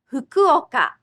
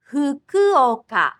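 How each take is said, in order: First: Fukuoka at normal speed, fu-ku-o-ka; Japanese pronunciation. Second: Fukuoka said slowly fu-ku-o-ka, every syllable apart; slow Japanese pronunciation. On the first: Teacher giving the place name at natural speed. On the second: Teacher slowly modelling a place name for learners. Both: Shown as a demonstration. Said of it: "Let's try several place names".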